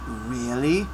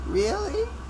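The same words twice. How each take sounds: First: It is said in a plain voice. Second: It is said in a whimpering voice. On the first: The speaker calls it wrong. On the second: The speaker calls it right.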